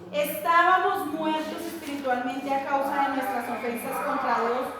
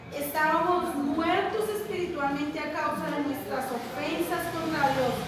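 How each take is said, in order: No difference in how they are said.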